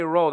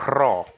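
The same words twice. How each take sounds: First: Ro with a plain, untrilled English R; lazy English R. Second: Rho with a rough, trilled R at the start; rolled Greek R. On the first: Warning Greek learners off lazy ro with an English R. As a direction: say ro like English "row". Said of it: "Don't say ro, that's lazy". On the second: Correcting lazy learners, rho with a trilled Greek R. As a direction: roll the R hard in rho. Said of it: "Say rho". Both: Shown as a demonstration.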